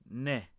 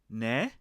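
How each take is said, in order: First: The pitch stays level or falls at the end. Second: The pitch rises at the end. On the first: It means yes. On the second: It asks the other person to repeat. "what. So depending on the intonation, if you raise your intonation there"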